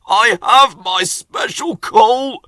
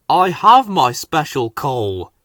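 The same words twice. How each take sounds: First: Wheezy. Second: Said in the usual way. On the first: A narrator's reading. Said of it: "Henry wheezed". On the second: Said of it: "he told them".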